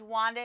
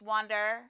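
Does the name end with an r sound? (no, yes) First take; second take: no; yes. First: The name ends in a plain vowel, no r. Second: The name ends with an added r sound. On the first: The speaker calls it right. "there's no R in it at all" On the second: The speaker calls it wrong. "an English thing and an Aussie thing to put R's on the end"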